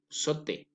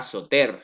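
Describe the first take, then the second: First: The final r is silent. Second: The final r is pronounced. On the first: The speaker calls it right. "sinon sauter" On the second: The speaker calls it wrong. "Ce n'est pas sauter"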